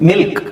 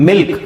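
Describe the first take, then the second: The two takes are said the same way.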